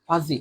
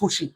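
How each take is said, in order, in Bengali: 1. মাঝের ব্যঞ্জনটি z ধ্বনি। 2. মাঝের ব্যঞ্জনটি s ধ্বনি। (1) "এটার উচ্চারণ হবে ভাইয়া ফাজি" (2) "নট ফুসি, ফুসি বা ফিসি কিছু না"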